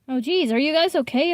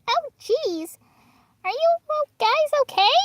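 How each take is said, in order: First: It is said in the reader's own voice. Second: It is said imitating Marshmallow's voice.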